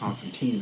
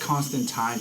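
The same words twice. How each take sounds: First: The name is said with an American pronunciation. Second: The name is said with a British pronunciation. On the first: "because of us Americans" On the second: "technically is the British pronunciation"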